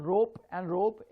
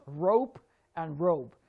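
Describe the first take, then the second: First: "rope" with a pure, unglided o; wrong pronunciation. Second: "rope" slowly, with a gliding o; drawn-out "rope" with a diphthong; correct diphthong. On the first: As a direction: say "rope" without the diphthong. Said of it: "it's not rope and rope". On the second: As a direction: glide from o to oo in "rope". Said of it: "O here is a diphthong". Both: Shown as a demonstration.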